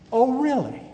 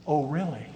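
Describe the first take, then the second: First: High mock surprise, dripping with irony; God mocking a preachy prayer, high sarcastic voice. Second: Said in the usual way. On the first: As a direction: play God teasing the know-it-all. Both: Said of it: "I can see God up in heaven saying".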